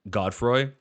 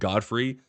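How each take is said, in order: First: The name ends with a 'froy' sound. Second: The name ends with a 'free' sound. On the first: The speaker calls it right. "not Godfroy" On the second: The speaker calls it wrong. "I was pronouncing it Godfrey"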